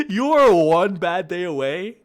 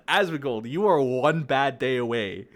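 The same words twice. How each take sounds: First: Louder, higher shouted threat. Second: Loud threatening shout. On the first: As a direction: scream the warning. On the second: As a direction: yell it as a warning. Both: Real, not acted.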